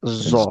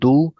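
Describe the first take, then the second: First: The first consonant is a buzzing z-like sound. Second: The first consonant is a heavy d-like stop. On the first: The speaker calls it wrong. "there are some people who re read this letter as zal" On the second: The speaker calls it right. "this letter is purely dod, so it must be read like do"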